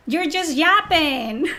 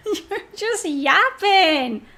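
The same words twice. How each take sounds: First: Drawn out slow and scornful; slow it down and mock him; dismissive, slow put-down; slow mocking dismissal. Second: Laughing through it, slow; mocking laughter over the words; laughing put-down. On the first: Mocking a critic. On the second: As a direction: laugh at him as you say it. Repeats it laughing. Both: Real, not acted.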